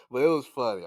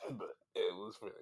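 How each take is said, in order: First: Said in the usual way. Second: Breaking into laughter, softer; laughing. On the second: Real, not acted. Still cracking up at the song, quiet laughing. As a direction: giggle it out under your breath.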